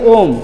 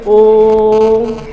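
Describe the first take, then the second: First: The vowel is said short and plain. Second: The vowel is drawn out very long. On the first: The speaker calls it wrong. "ऐसे नहीं बोलेंगे ओम, नहीं" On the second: The speaker calls it right. "लंबा सांस खींचते हैं"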